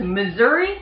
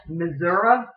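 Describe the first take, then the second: First: Said in the usual way. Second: "Missouri" ending in "uh", "mizz-UR-uh"; rural local pronunciation. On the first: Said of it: "this one's a little different". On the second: Shown as a demonstration. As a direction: end "Missouri" on "uh", like older locals. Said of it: "The local people, typically older, more rural".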